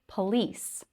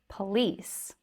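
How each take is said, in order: The two takes are said the same way.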